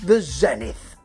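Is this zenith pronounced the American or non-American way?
non-American. Zenith is said in a non-American way.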